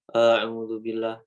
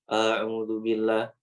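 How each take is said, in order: No difference in how they are said.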